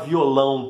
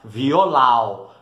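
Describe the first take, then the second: First: The final vowel is nasalized. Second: The final vowel is oral, without nasalization.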